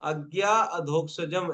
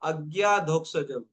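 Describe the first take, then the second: First: The two vowels are said separately, with a break. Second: The two vowels merge into one without a break. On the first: The speaker calls it wrong. "ऐसे मत पढ़ो" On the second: The speaker calls it right. "अ आ खा जाओ बीच में से"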